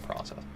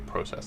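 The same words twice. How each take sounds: First: It is pronounced without a Canadian accent. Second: It is pronounced with a Canadian accent. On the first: "instead of process" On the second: "the way that Canadians say process"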